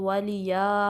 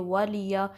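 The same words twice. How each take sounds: First: The ya sound is stretched out long. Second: The word is said lightly at normal length. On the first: The speaker calls it wrong. "वलिया स्ट्रेच भी नहीं करना" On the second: The speaker calls it right. "आराम से पढ़ेंगे"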